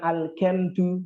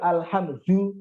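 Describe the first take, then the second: First: The middle consonant is a hard k sound. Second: The middle consonant is a breathy h sound. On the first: The speaker calls it wrong. "bukan pakai kaf, bukan al-kamdu" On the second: The speaker calls it right. "pakai ha"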